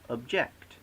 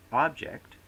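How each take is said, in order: First: "object" stressed on the second syllable; verb stress. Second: "object" stressed on the first syllable; noun stress. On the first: Lecturer showing stress shift to students, verb ob-JECT. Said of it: "often change accent". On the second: Lecturer showing stress shift to students, noun OB-ject. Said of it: "from noun to verb". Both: Shown as a demonstration.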